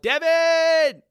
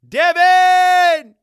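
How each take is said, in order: First: The name is shouted less loudly. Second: The name is shouted much louder.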